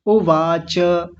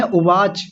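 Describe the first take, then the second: First: उवाच said slowly with a full final च; correct pronunciation. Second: उवाच with a clipped final च; wrong pronunciation. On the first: Teacher giving the right version after the mistake. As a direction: stretch उवाच out and finish the च. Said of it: "उवाच नहीं है". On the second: Teacher demonstrating the mistake first. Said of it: "गलत बोलते हैं". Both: Shown as a demonstration.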